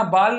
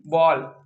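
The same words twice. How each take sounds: First: बॉल said as "baal" with open "aa"; wrong vowel demo. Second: बॉल as "bawl" with rounded "aw", pitched lower; correct vowel demo. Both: Shown as a demonstration. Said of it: "बॉल नहीं".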